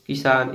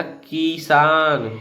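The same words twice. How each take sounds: First: किसान said quick with a short इ; right quick किसान; short quick kisan. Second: किसान said slowly with a long drawn ई; wrong long किसान, slow; long ee demo. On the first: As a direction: clip the first vowel of किसान short. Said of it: "ऐसे जल्दी से मतलब कह दिया जाता है". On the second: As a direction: stretch the vowel in किसान long. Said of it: "अगर बड़ा ई होता तो". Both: Shown as a demonstration.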